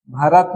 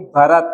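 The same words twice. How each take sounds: First: भरत begun with plain "b": "barat"; unaspirated first sound. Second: Said in the usual way. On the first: Shown as a demonstration. Teacher showing a wrong sound, plain "b" in भरत. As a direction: take the puff off भरत. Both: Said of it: "नहीं".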